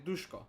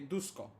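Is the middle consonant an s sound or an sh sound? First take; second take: sh; s. First: The middle consonant is an sh sound. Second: The middle consonant is a plain s sound. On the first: This is how the name is really said. The speaker calls it right. "but it's actually Dushko" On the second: This is how others say the name. The speaker calls it wrong. "they would say Dusko"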